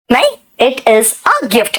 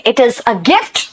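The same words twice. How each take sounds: First: The little word "a" leaned on, slowed; stress on a. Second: Said in the usual way. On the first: Shown as a demonstration. Teacher correcting students, pressing on "a". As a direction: hold "a" a beat before gift. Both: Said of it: "अ क्यों लगाया भाई?".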